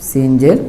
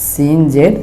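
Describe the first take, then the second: No difference in how they are said.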